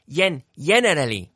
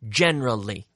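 First: The word is said with four full syllables. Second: The word is said with three syllables. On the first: The speaker calls it wrong. "notice we don't say generally. No" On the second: The speaker calls it right. "Three syllables"

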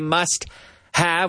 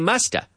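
First: Both words are said fully and separately. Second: The words blend into one reduced word. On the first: The speaker calls it wrong. "we don't normally say must have" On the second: The speaker calls it right. "We say musta"

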